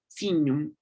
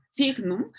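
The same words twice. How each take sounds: First: Signum with gn as ñ, siñum; Italian Latin signum. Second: Signum with a hard G then N, sig-num; classical Latin signum. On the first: Teacher contrasting: Italian Latin signum said siñum. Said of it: "en la italiana sonaría signum". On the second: Teacher demonstrating classical Latin signum. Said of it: "en la clásica sonaría". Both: Shown as a demonstration.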